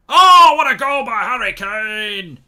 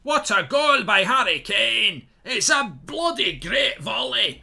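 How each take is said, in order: First: Booming, slow Scottish commentator roar, much higher. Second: Loud, slow, high Scottish commentary call; Scottish commentator. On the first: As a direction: bellow it like a Scottish TV commentator losing it. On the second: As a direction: keep the Scottish commentator's excitement going. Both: Acted. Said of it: "I don't know why I'm saying speaking Scottish".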